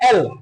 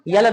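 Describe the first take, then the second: First: The letter name starts with a plain vowel. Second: The letter name starts with a y-glide. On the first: The speaker calls it right. "वो होता है एल" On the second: The speaker calls it wrong. "यल नहीं होता है"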